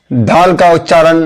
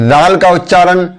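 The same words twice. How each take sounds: The two takes are said the same way.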